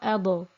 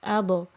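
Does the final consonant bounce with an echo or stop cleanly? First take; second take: bounce; bounce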